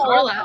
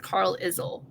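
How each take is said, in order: First: The name ends with a 'lyle' sound. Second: The name ends with an 'izzle' sound. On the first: The speaker calls it right. "I realized it was actually Carlisle" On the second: The speaker calls it wrong. "I read Carlisle as Carl Izzle"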